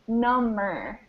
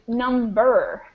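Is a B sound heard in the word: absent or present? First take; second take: absent; present. First: The word is said without a B sound. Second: The word is said with a B sound. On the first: It means more numb. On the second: It means a count or amount.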